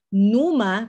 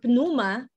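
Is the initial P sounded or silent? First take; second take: silent; sounded. First: The initial P is silent before the n. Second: The initial P is sounded before the n. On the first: The speaker calls it right. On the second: The speaker calls it wrong.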